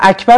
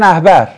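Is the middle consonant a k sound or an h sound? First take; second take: k sound; h sound. First: The middle consonant is a k sound. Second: The middle consonant is an h sound. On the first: "مثلا اکبر رو" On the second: "میگن احبر"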